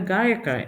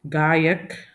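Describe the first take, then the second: First: The word ends with a full final a vowel. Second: The word ends on a consonant, vowel cut short. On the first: This is the Kannada form. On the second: This is the Hindi form.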